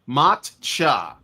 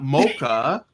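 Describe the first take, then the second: First: The middle consonant is a ch sound. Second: The first vowel is o, then a k sound. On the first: The speaker calls it right. "That's it" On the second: The speaker calls it wrong. "not mocha"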